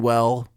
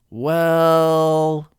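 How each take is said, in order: First: The pitch falls on the word. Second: The pitch stays level with a long L. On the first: Bad news is about to be delivered. "the hate to break it to you version, a downswing" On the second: The speaker is hesitating. "the hesitant well said with a sideward swing, as if the L sound would carry on forever"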